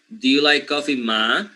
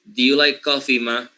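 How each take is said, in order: No difference in how they are said.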